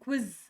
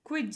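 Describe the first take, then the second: First: The word ends with a buzzing 'z' sound. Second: The word ends with a 'j' sound. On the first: The speaker calls it right. "ಕ್ವಿಜ್ ಅಂತ ಝ ಸ ಉಚ್ಚಾರ ಒಟ್ಟಿಗೆ ಬರಬೇಕು" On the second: The speaker calls it wrong. "ಕ್ವಿಜ್ ಅಲ್ಲ, ಜ ಅಲ್ಲ"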